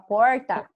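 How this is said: The r is said in a caipira accent. "Uma pessoa que mora, eu acho que em São Paulo, ou caipira, fala porta"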